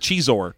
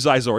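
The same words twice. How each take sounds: First: The first X is said the Mexican way. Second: The first X sounds like the start of xylophone. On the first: "Or maybe it's Mexican" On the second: "It's like xylophone"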